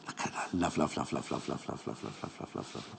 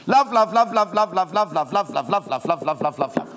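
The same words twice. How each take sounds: First: Very soft, low rapid repeats fading into whisper; hushed, fading chant of love; adoring whisper. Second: Loud rapid-fire repeats, easing off gradually; gushing love. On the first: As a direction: murmur it over and over, dwindling away. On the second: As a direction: burst into an adoring chant. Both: Real, not acted. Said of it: "Can you tell I love this?".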